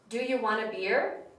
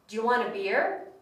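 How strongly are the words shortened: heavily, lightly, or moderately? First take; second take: lightly; moderately. First: The words are only slightly shortened and blended. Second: The words are more shortened and blended together. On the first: "the sentence becomes shorter and shorter every time" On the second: "the sentence becomes shorter and shorter every time"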